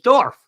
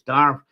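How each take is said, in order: First: The vowel sounds like 'or' in 'for'. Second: The vowel sounds like 'ar' in 'car'. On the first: This is how it is said in the Hebrides. "the Hebrides it's Dorf" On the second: This is how it is said in Kerry. "I think in Kerry it's Darf"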